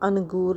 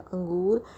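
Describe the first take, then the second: First: The n is pronounced as a full consonant. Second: The n is only a nasal vowel sound. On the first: The speaker calls it wrong. "ना कि हम अंगूर नहीं कहेंगे" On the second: The speaker calls it right. "हम अपने नाक में इसकी आवाज़ लेंगे"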